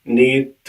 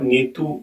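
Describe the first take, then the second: First: The word ends on the consonant, no vowel. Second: The word ends with a clear 'u' vowel. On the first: The speaker calls it right. "नीत बोलेंगे" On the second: The speaker calls it wrong. "इसको आप नीतू नहीं बोलेंगे"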